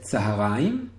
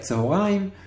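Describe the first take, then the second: First: The word begins with an 'a' vowel. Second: The word begins with an 'o'-like vowel. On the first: This is the common colloquial pronunciation. The speaker calls it wrong. "were incorrectly read Tzaharaim" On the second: This is the standard pronunciation. The speaker calls it right. "should be pronounced like that"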